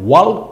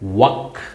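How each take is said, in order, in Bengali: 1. L ধ্বনিটি K-এর আগে উচ্চারিত হয়। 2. L ধ্বনিটি K-এর আগে নীরব থাকে। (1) "মনে হইতে পারে ওয়াল্ক, কিন্তু না, ওয়াল্ক না" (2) "উচ্চারণ কি হবে? ওয়াক"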